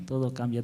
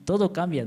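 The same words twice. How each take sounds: First: Said in the usual way. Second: Higher and louder, stress on "todo"; emphatic. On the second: Real, not acted. Seminarian telling the church how everything changed, emphatic. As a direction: push "todo cambia" out with conviction.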